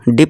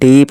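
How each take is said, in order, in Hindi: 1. स्वर छोटा और झटके से बोला गया है। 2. स्वर लंबा और खिंचा हुआ है। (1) "डिप नहीं" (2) "हम ई को लास्ट खींच रहे हैं"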